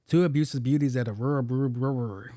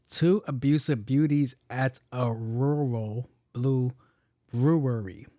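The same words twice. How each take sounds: First: Quicker run stumbling at the end; fumbled tongue twister. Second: Slow, word-by-word demonstration; careful tongue twister. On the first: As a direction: rattle it off and trip on brewery. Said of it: "I sound just as dumb as she did". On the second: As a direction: spell the twister out slowly with gaps. Shows the sentence for others to try. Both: Shown as a demonstration.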